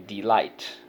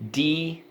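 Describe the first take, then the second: First: Said in the usual way. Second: DEE, long pause, LIGHT for "Delight"; syllable by syllable. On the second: Shown as a demonstration. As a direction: split "Delight" into two spaced, full syllables. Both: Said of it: "first syllable".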